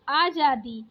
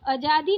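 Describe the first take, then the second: First: आज़ादी with a long opening aa; correct long first vowel. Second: आज़ादी with a short first a; wrong short first vowel. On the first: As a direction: say आज़ादी as "aa-jaa-di". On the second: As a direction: say आज़ादी as "uh-jaa-di". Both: Shown as a demonstration. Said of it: "आज़ादी नहीं".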